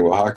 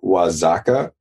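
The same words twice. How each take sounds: First: The middle consonant sounds like an H. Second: The middle consonant sounds like a Z. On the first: The speaker calls it right. "so that's like an H sound" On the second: The speaker calls it wrong. "I thought the X was a Z sound"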